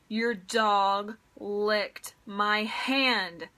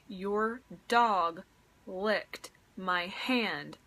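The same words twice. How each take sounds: First: It is said noticeably louder. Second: It is said at a normal, quieter volume.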